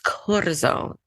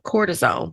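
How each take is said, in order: First: It is said the Spanish way, with a rolled R. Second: It sounds like the English word cortisone. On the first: The speaker calls it right. "but it's cortisone. And I know how to roll my R's too" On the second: The speaker calls it wrong. "I'd say it sounds like cortisone"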